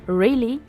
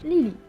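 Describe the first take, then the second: First: The word begins with an R sound. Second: The word begins with an L sound. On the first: "au lieu de dire really" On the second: "Ils ont beaucoup de difficultés à prononcer le R, donc ... ça donne Lily"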